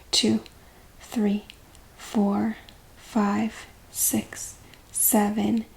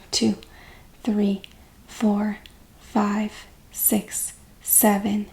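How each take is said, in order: Both takes have the same delivery.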